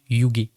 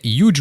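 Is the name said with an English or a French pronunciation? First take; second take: French; English. First: The name is pronounced the French way. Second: The name is pronounced the English way. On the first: "ça se prononce Yuge" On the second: "je croyais que ça se prononçait à l'anglais"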